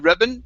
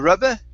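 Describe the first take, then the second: First: The word ends in a plain -in sound. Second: The word ends in a weak -uh vowel. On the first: "If you just say rubbin" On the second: "or rubba"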